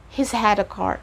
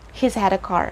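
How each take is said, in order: First: The word has is contracted to he's. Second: The word has is contracted to he's.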